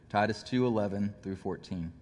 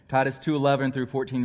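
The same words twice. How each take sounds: First: It is said slowly. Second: It is said quickly.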